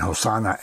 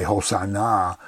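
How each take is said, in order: First: Said in the usual way. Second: "Hosanna" with the final syllable stressed; stress on last syllable. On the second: Shown as a demonstration. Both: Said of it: "the emphasis on the last syllable".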